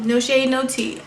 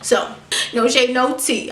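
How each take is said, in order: First: Laughing. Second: Said in the usual way. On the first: Real, not acted. Laughing at her own shade.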